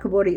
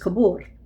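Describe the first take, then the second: First: The word ends with an added i vowel. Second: The word ends on the r consonant. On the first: The speaker calls it wrong. "it's not kuburi" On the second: The speaker calls it right. "it's kubur"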